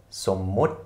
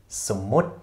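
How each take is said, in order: No difference in how they are said.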